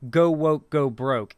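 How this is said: It sounds stern and threatening, like a warning. A threat that they will boycott it. "it's meant to act as a warning"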